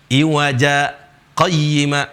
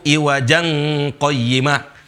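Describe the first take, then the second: First: A brief silent stop comes between the words. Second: The two words run together without a break. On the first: The speaker calls it right. "Dia harus izhar" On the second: The speaker calls it wrong. "Kalau dilanjutkan. Tapi di sini nggak boleh begitu"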